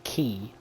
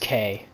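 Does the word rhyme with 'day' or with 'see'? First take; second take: see; day. First: The word sounds like the word key. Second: The word sounds like the letter K. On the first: The speaker calls it wrong. "It is not key" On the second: The speaker calls it right. "It is K, by the way. It's literally how it is pronounced"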